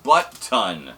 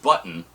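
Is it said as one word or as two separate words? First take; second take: two words; one word. First: It sounds like two separate, evenly stressed words. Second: It sounds like one word stressed on the first syllable. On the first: It means a large amount, a butt-load. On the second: It means the ordinary fastener. "Not button"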